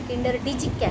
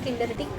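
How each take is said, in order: First: The last part is said as two syllables, dijik. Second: The last part is said as one syllable, dik. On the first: This follows the written spelling. "Actually spelling ನೀವು ನೋಡಿದ್ರೆ" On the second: This is how locals say it. "ಇಲ್ಲಿ ಅದನ್ನ ಕಿಂಡರ್ ಡಿಕ್ ಅಂತ ಹೇಳಿ ಪ್ರೊನೌನ್ಸ್ ಮಾಡ್ತಾರೆ"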